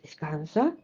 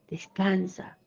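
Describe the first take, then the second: First: Low, soft soothing word; calm the listener gently; lowered, hushed comforting voice; soft reassurance. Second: Breathy whispered reassurance; soft whispered "descansa". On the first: God's soothing reply. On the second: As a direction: whisper it to calm them. God's soothing reply, whispered. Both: Acted.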